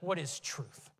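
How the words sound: The question is asked with a scoffing tone. The asker dismisses the idea of truth. "did he ask scoffingly?"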